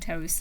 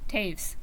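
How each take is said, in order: First: The name sounds like the word toes. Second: The name rhymes with waves. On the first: The speaker calls it wrong. "they were saying toes" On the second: The speaker calls it right. "That's right, Taves. Rhymes with waves"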